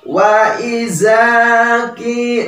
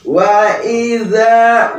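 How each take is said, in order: First: The middle consonant sounds like a plain z. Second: The middle consonant is a voiced th sound. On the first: The speaker calls it wrong. "Rata-rata ya, itu dibacanya wa izaki. Nah, itu salah" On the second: The speaker calls it right. "Tetapi ini za, za"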